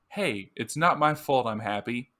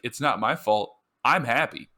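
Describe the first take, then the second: First: There is no pause after 'fault'. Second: There is a pause after 'fault'.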